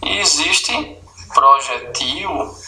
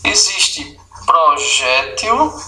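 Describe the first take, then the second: First: Projetil, stress on the last syllable, til. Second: Projétil, stress on jé, slowly. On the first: Teacher shows the second stress form. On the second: Teacher shows the first of two stress forms. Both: Shown as a demonstration. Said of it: "Pode falar das duas formas".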